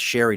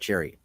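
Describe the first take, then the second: First: The name begins with an 'sh' sound. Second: The name begins with a 'ch' sound. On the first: The speaker calls it right. "it's pronounced Sherry" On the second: The speaker calls it wrong. "not Cherry"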